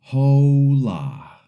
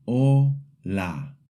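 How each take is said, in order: First: Hola with a sounded H, English style; hola pronounced the English way, H sounded; wrong way. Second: Hola with a silent H and a pure O; Hola spoken the Spanish way, H silent; correct Spanish. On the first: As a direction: say hola starting with a breathy English H. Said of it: "The wrong way is". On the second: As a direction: say Hola as O-la, no H at all. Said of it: "So repeat after me". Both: Shown as a demonstration.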